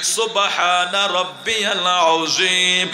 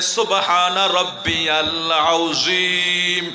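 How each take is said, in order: Both takes have the same delivery.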